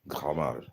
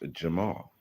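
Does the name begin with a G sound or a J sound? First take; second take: G sound; J sound. First: The name begins with a hard G sound. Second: The name begins with a soft J sound. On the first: "That's how you would say it in Arabic" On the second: "his name is Jamal"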